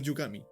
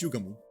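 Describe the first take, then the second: First: The name ends with an 'ee' sound. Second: The name ends with an 'oo' sound. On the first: The speaker calls it wrong. "not Yugami" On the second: The speaker calls it right. "It's Yugamu"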